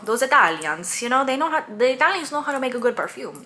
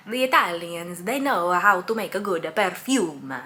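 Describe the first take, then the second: First: Put-on an Italian accent that slides into Cuban, louder and higher; attempted Italian accent. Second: Said in the usual way. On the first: Praising Italian perfume makers in a botched Italian accent. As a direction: try for Italian, land on Cuban. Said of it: "This is the Cuban accent coming out". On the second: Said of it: "That's not an Italian accent".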